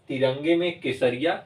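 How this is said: There is a clear pause after Kesariya. The speaker calls it right. "फिर कुछ second के लिए रुकेंगे"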